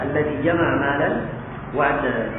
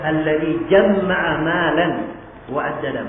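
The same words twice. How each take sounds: First: The m in jama'a is short and single. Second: The m in jama'a is held and doubled. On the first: This is the common reading. "Itu bacaan kita" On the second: This is an alternative reading with one extra letter. "Ada tambahan apa? Tasydid"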